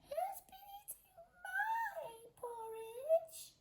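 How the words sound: It is said in a tiny squeaky voice.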